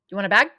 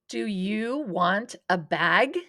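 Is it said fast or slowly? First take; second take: fast; slowly. First: It is said fast. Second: It is said slowly.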